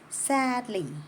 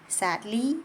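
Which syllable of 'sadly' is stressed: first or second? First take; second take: first; second. First: The stress is on the first syllable. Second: The stress is on the second syllable. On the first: The speaker calls it right. "I say sadly" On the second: The speaker calls it wrong. "I don't say sadly"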